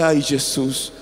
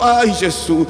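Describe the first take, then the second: First: Low, subdued mock groan; retold pain. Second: Stronger, drawn-out mock groan; retold worsening pain. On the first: Pastor in bed as pain begins, low pained moan. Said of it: "Yo falei". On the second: Pastor in bed as pain worsens, louder pained moan. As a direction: moan it harder as the ache grows. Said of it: "o dor pioró".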